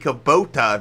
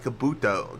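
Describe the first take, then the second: First: The name is said as Ku-bo-ta. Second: The name is said as Ka-bu-to. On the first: The speaker calls it right. "it'd be Kubota" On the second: The speaker calls it wrong. "not Kabuto"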